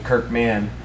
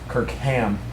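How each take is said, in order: First: The second part begins with an M sound. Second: The second part begins with an H sound. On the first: The speaker calls it wrong. "Kirk Man is somebody else" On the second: The speaker calls it right. "I'm a ham, not a man"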